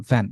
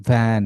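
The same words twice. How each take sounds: First: ভ্যান with a quick, short vowel; short vowel sound. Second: ভ্যান with the vowel stretched long; drawn-out vowel. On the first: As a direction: say ভ্যান without stretching the vowel. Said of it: "short sound". (ভ্যান টান না দিয়ে, ছোট করে) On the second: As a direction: drag out the middle of ভ্যান. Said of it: "টেনে পড়া যাবে না". (ভ্যান টেনে টেনে পড়া) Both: Shown as a demonstration.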